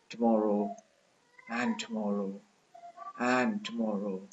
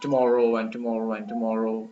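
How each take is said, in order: First: The stress falls on each and. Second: The stress falls on each tomorrow. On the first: The speaker calls it right. "when you utter it by stressing the and" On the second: The speaker calls it wrong. "most students have the habit of uttering, you know, uh, the line by stressing tomorrow"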